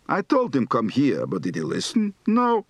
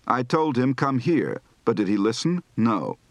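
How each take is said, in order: First: Exaggerated Yiddish intonation. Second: Said in the usual way. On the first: Shown as a demonstration. Teacher demonstrates complaining Yiddish tune, big jumps. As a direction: swing the tune wide, Yiddish style. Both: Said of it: "Recite the following practice phrases".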